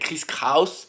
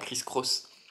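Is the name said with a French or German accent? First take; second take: German; French. First: The name is said with German pronunciation. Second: The name is said with French pronunciation.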